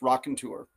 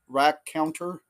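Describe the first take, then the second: First: The first syllable sounds like rock. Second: The first syllable sounds like rack. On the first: The speaker calls it right. "but it's Rock and Tour" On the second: The speaker calls it wrong. "where I got rack rack counter instead"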